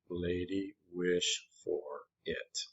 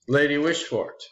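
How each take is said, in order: First: The name is said slowly, syllable by syllable. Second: The name is said at a normal pace.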